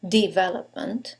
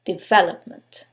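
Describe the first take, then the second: First: "development" with the weight on DE, the rest light; DEvelopment as a wrong-stress test, rising like a question; stress on first syllable. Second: "development" with VEL clearly stressed, falling to a close; the model take, deVELopment, calm and final; correct stress on second syllable. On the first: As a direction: hit DE in "development", then run on. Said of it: "Is it the first one". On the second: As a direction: say "development" the right way, weight on VEL. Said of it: "it's the second syllable". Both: Shown as a demonstration.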